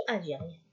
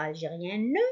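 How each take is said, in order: First: Algérienne with the last E left mute; silent final E. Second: Algérienne ending in a sounded "-neu"; wrongly voiced final E. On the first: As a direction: say algérienne ending on the N. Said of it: "on dit". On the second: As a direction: say algérienne with an extra "nuh" at the end. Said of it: "On ne dit pas". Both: Shown as a demonstration.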